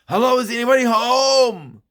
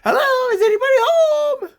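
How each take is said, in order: First: It is said in the speaker's own adult voice. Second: It is said in a put-on child's voice.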